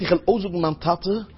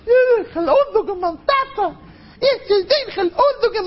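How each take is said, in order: First: Said in the usual way. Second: Put-on very high, squealing small-child voice; boasting little child. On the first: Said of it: "Und wenn er sagt". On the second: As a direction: pipe up like an excited kid bragging about Daddy. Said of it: "Hörst du mal, wie ein Kind sagt". (א הויך קינדעריש קול, באַרימט זיך מיטן טאַטן)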